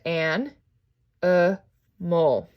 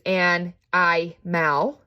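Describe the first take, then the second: First: The middle vowel is a weak uh sound. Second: The middle vowel is a long I sound. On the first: The speaker calls it right. "I'm here a schwa" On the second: The speaker calls it wrong. "I don't say"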